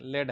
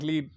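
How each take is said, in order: First: The vowel is a short e sound. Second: The vowel is a long ee sound. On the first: The speaker calls it right. "इसको लेड pronounce करते हैं" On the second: The speaker calls it wrong. "हमारे दूसरे student की तरह लीड"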